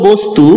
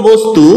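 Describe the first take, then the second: No difference in how they are said.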